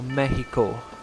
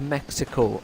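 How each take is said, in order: First: Said with a Spanish-style pronunciation. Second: Said with the usual English pronunciation.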